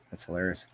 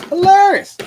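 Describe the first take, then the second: First: Said in the usual way. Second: Shrieked high and loud, put-on voice; mocking falsetto cry; mock high squeal. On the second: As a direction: squeal it like a cartoon. Mocking voice repeats hilarious.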